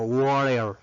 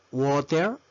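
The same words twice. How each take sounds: First: Slow WATER with a tapped R replacing the T; water with R sound. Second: Said in the usual way. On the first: Shown as a demonstration. Teacher offering the other valid form, water with R for T. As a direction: say WATER as "warer". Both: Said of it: "Es válido decir".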